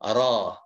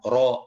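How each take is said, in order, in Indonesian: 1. Bibir diam, tidak dimajukan ke depan. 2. Bibir dimajukan ke depan saat mengucapkannya. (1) "ya tahan bibirnya tidak bergerak ke depan" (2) "mulut kita harus monyong ya ke depan. ... nggak begitu"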